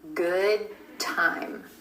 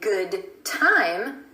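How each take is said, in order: First: The D in good is held, unreleased. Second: The D in good is audibly released. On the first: "we're going to hold that D" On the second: "Instead of releasing that D at the end of good and saying good time"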